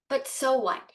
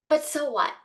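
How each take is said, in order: No difference in how they are said.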